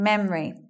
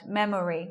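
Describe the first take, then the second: First: The middle O vowel is dropped. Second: The middle O vowel is clearly pronounced. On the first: The speaker calls it right. "Saying memory" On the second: The speaker calls it wrong. "We're not hearing it like that"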